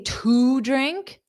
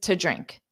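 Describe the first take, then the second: First: The word 'to' has a full vowel. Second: The word 'to' is a quick reduced t. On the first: The speaker calls it wrong. "you wouldn't say to drink" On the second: The speaker calls it right. "just to drink"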